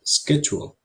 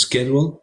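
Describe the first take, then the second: First: Schedule, British style, starting with sh; British pronunciation. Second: Schedule said the American way, with a hard sk sound: SKED-jool; schedule, American style, starting with sk; American pronunciation. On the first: Teacher shows students how the English say the word, British accent. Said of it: "y ellos dicen schedule". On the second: Teacher shows students how Americans say the word, American accent. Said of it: "Nosotros decimos schedule". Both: Shown as a demonstration.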